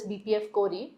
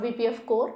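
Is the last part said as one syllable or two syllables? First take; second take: two syllables; one syllable. First: The last part is said as two syllables. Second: The last part is said as one syllable. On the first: The speaker calls it right. "pronounced as B P F Core E" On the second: The speaker calls it wrong. "It's not B P F Core"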